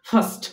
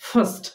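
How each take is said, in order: No difference in how they are said.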